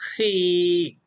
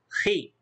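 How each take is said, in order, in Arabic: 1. الحركة بعد الخاء طويلة. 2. الحركة بعد الخاء قصيرة. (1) "والمد" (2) "صوت القصير"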